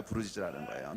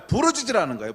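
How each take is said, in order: First: Low, much softer restatement; subdued repeat. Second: "부르짖으라는" pushed out strongly, raised in pitch; emphatic command. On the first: Preacher repeats the command to congregation, low and quiet. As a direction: let the command drop to a quiet echo. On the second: Preacher urges congregation to cry out, "부르짖으라는" strongly stressed. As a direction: hammer "부르짖으라는" home. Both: Real, not acted.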